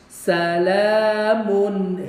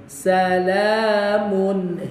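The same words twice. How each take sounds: Both takes have the same delivery.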